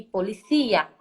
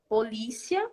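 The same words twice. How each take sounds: First: Policia as Spanish po-li-CÍ-a; stress on CÍ. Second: Polícia stressed on LÍ, the Portuguese way; stress on second syllable. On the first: Teacher contrasting Spanish with Portuguese, policia stressed on CÍ. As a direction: push the stress in policia onto the later syllable CÍ. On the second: Teacher giving a classic example, polícia stressed on LÍ. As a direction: say polícia with the weight on the middle syllable LÍ. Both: Shown as a demonstration. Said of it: "Existe uma mudança na sílaba tônica".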